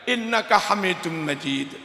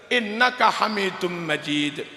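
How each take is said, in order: No difference in how they are said.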